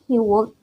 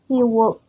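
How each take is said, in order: The two takes are said the same way.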